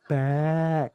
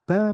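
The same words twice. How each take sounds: First: The syllable is read slowly and drawn out long. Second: The syllable is read at a steady, short pace. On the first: The speaker calls it wrong. "Karena terlalu lambat. Jadinya panjang kan?" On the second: The speaker calls it right. "Jadi Abah pinginnya slow, slow saja. Biasa"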